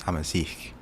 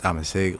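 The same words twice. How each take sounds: First: "Amazigh" ending in a long ee and k sound; alternative pronunciation. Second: "Amazigh" ending in a short i and hard g; alternative pronunciation. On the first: Unsure streamer offering chat another pronunciation, "Amazigh" as AM-uh-zeek. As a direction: say "Amazigh" as AM-uh-zeek, falling softly. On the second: Unsure streamer offering chat one pronunciation, "Amazigh" as AM-uh-zig. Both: Shown as a demonstration. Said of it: "don't even know if I pronounce Amazigh correctly".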